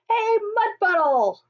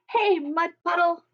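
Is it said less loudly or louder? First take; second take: louder; less loudly. First: It is called out even louder. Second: It is called out less loudly.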